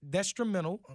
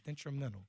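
First: "Detrimental" garbled as "des-trimental"; tongue slip. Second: "Detrimental" said carefully and softly, no extra s; careful correction. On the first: Host fumbling a podcast name, tongue slip on "Detrimental". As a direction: stumble into "Detrimental" with an extra s, like "destrimental". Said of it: "call that my Cajun accent". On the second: Host correcting a tongue slip, "Detrimental" said carefully and softly. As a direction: sound out "Detrimental" quietly as "det-ri-men-tal". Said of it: "let me slow down". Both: Real, not acted.

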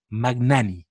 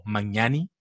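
First: Magnani with the G sounded before N; hard G-N. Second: Magnani said as ma-NYA-ni; Italian-style GN. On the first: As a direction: say "Magnani" as mag-NA-ni. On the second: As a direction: say the GN in "Magnani" like Spanish ñ. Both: Shown as a demonstration. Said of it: "No sé cómo se pronuncia".

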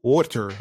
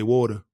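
First: "water" with a crisp t, WAW-ter; over-enunciate the t in "water"; co-host's careful pronunciation. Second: "water" softened to WAW-duh; own casual pronunciation. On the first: Podcaster imitating his co-host, carefully pronounced "water". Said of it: "You say". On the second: Podcaster showing his own way, loosely spoken "water". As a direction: drop the final r and soften the t in "water". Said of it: "I say water". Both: Shown as a demonstration.

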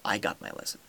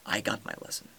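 No difference in how they are said.

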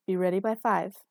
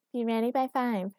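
First: Said in the usual way. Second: Higher-pitched mimicking echo; mocking repetition. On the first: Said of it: "she repeated". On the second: A narrator's reading. Girlfriend repeats his order under the covers, mocking. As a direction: parrot the order back at him. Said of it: "sotto voice".

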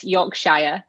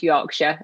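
First: "Yorkshire" read out as spelled, York-shy-er with a full final "shire"; "Yorkshire" as it looks on paper, York-shy-ah; spelling pronunciation. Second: "Yorkshire" clipped to York-shuh, short reduced ending; "Yorkshire" with the "shire" swallowed into shuh. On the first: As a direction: sound out every letter of "Yorkshire", York-shire. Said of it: "it's spelled Yorkshire". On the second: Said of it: "but it's pronounced Yorkshire". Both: Shown as a demonstration.

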